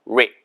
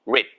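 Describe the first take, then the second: The two takes are said the same way.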